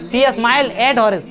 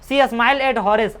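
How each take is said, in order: First: Slow reread. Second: Slow reading. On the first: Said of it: "rereading the line". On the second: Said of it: "reading the text aloud". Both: Shown as a demonstration.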